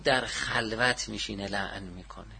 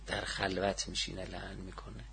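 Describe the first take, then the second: First: Said in the usual way. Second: Low, much softer delivery; hushed repeat. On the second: Real, not acted. Teacher repeating the narration about cursing in seclusion, hushed. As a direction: drop the voice right down, confidingly.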